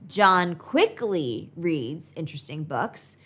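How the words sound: The word quickly carries the main stress. The reading is done at a fast pace. "The emphasis on quickly highlights the speed of John's reading"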